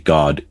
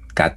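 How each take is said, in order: First: It is said with an English pronunciation. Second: It is said with a Korean pronunciation. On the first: "translated into English as God" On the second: "it's Koreanizing the English word God, the pronunciation"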